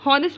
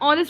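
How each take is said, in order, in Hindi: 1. यह शब्द एक सुनाई देने वाले h से शुरू होता है। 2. यह शब्द स्वर से शुरू होता है, कोई h नहीं है। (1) "हॉनेस्ट तो बोलते नहीं है" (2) "ऑनेस्ट बोलते हैं"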